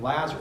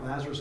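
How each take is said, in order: First: The name is said very loudly, almost screamed. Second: The name is said at a normal, soft volume.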